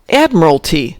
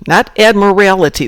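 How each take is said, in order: First: The word is said without an extra syllable. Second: The word is said with an extra syllable. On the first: The speaker calls it right. "There's not an extra syllable in there" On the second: The speaker calls it wrong. "not an extra syllable"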